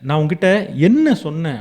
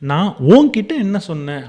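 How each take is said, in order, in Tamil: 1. அழுத்தம் 'என்ன'ங்கிற வார்த்தைக்கு விழுது. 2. அழுத்தம் 'உன்'னு சொல்ற வார்த்தைக்கு விழுது. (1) "நான் சொன்னதுக்கு பதிலா நீ வேற எதையோ செஞ்சிருக்க" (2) "நான் உங்கள ஸ்ட்ரெஸ் பண்ணி"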